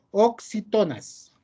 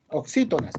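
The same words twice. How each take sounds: First: Oxítonas misread slowly, with the stress on TO; oxítonas drawn out and higher, stressed as oxiTÓnas; mistaken stress. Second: Oxítonas with the stress moved back to SÍ; oxítonas said as oxÍtonas, quicker, as a correction; corrected stress. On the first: Teacher misreading a term aloud to the class, mistaken stress. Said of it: "perdón". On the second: Teacher correcting a misread term for the class, corrected stress. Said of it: "perdón, oxítonas". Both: Real, not acted.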